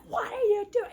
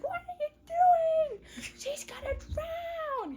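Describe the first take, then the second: First: Raised, higher, laughing outcry; retold indignant yell; mock yell. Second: Squealed mock alarm; frantic mock yell. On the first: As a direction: yell it half-laughing, imitating alarm. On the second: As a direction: shriek like a panicking mother, hammed up. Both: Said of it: "Someone came and yelled at him".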